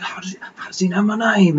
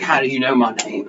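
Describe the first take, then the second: First: High, hurried, whispery mock unease; mock spooked whisper. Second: Said in the usual way. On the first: Player replays reaction to hearing the name, whispery unease. Retells reaction to creepy naming.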